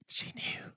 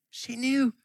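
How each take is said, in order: First: Whispered echo. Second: Higher, ringing declaration; emphatic. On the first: Preacher echoing to the church that Mom knew, whispered. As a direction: repeat it in a bare whisper. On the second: Preacher insisting to the church that Mom knew, pitched high. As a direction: lift it high with conviction. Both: Shown as a demonstration.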